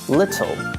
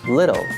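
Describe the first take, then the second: First: It is said in a British accent. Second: It is said in an American accent.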